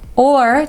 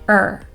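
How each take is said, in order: First: The word is said in full with its vowel. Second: The word is reduced to a short er sound.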